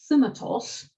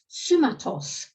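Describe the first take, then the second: First: The word begins with a th sound. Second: The word begins with an s sound. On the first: This is how the Spartans probably said it. "Presumably they're pronouncing this thumatos" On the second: This is how the Spartan text spells it. "refers in the Spartan bit of the treaty to sumatos"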